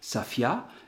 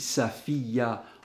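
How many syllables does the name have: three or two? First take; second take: two; three. First: The name is said with two syllables. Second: The name is said with three syllables. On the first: "ça sera deux syllabes" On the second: "en trois syllabes"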